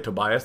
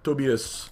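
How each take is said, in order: First: The name is said the non-European way. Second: The name is said the European way. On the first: "they don't say Tobias" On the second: "they say like Tobias"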